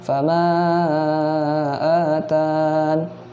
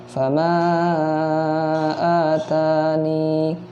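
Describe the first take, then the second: First: The word ends on the n sound. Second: The word ends with an added i sound. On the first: "huruf ya-nya tidak dibaca" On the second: "huruf ya-nya dilibatkan atau dimasukkan"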